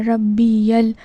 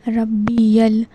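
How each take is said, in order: No difference in how they are said.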